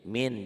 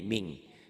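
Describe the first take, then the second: First: The word ends with a plain n sound. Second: The word ends with a held ng sound. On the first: "Ditulisnya N-nya ada" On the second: "dibacanya N-nya tambah G"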